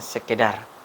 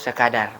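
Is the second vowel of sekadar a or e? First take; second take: e; a. First: The second syllable has the vowel e. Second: The second syllable has the vowel a. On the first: The speaker calls it wrong. "bukan sekedar" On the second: The speaker calls it right. "kata yang baku yaitu sekadar"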